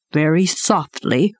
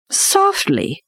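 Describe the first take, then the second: First: Said in the usual way. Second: Incredulous echo. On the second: A narrator's reading. Bagheera echoes the word in disbelief.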